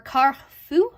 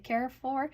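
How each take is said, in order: First: The name is said closer to French. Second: The name is said in an American way. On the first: "if you're actually, you know, trying to be closer to French" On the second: "but I call it the Carrefour"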